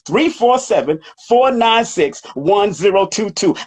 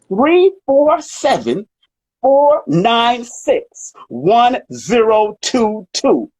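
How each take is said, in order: First: The number is read at a normal pace. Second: The number is read at a slower pace.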